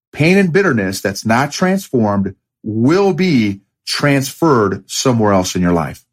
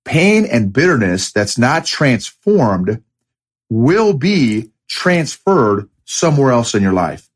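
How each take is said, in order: First: Said in the usual way. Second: Slow, weighted quote delivery. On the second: Shown as a demonstration. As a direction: read each word of the quote slowly for weight. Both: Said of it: "the next one is".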